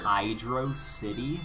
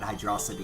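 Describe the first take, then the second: First: It is said as two separate words. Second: It is said as one blended word. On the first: The speaker calls it right. "I know it's supposed to be" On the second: The speaker calls it wrong. "I'm so used to calling it"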